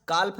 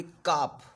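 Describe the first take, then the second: First: काल्फ with the L wrongly sounded before f; mispronunciation demo. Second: काप with no L sound before the final f; silent-L demo. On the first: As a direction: say काल्फ with an audible L. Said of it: "काल्फ नहीं बोलेंगे". (काल्फ में ल की ध्वनि गलती से बोलें) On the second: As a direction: say काप as "kaaf", leaving the L silent. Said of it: "आप सुने होंगे काप". (काप में एल को साइलेंट रखें) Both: Shown as a demonstration.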